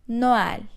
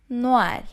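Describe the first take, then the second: The two takes are said the same way.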